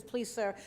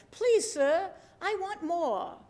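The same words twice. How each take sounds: First: Said in the usual way. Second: High, hammed-up English accent, begging; horrible English accent. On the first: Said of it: "I think he says". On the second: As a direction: plead like a hungry English boy, accent badly faked. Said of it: "I have a horrible English accent".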